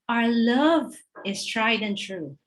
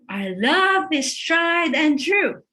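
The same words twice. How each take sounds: First: It is said at a normal, quiet volume. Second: It is said louder than normal.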